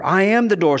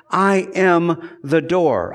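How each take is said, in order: First: "am" pushed up and leaned on; stress on am. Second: Said in the usual way. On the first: Shown as a demonstration. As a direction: press the word "am" in "I am the door". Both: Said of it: "this word "am".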